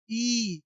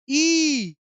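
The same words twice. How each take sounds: First: Said in the usual way. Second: Chanted, ई yelled higher and loud like schoolkids; shouted chant. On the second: Retold or imitated. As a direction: belt out ई the way children chanted it. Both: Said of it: "ऐसे हम लोग पढ़ते थे".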